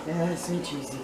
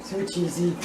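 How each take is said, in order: First: Much softer, lower. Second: Said in the usual way. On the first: Real, not acted. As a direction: drop to a soft low murmur on "so cheesy". Repeats it quietly, savouring.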